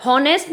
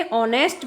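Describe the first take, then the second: First: हॉनेस्ट with the initial H sounded; wrong H pronunciation. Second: ऑनेस्ट starting straight on the O vowel; silent H pronunciation. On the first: Teacher showing children how not to say it, हॉनेस्ट with H voiced. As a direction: say हॉनेस्ट starting on a breathed H. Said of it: "हॉनेस्ट नहीं बोलते हैं इसे". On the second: Teacher correcting children's pronunciation, ऑनेस्ट with silent H. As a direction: say ऑनेस्ट with no H at all. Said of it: "ऑनेस्ट बोलते हैं". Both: Shown as a demonstration.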